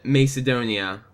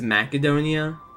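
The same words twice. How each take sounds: First: The first syllable does not sound like 'mac'. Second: The first syllable sounds like 'mac'. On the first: The speaker calls it wrong. "I've always pronounced it Macedonia" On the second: The speaker calls it right. "Like mac and cheese Adonia?"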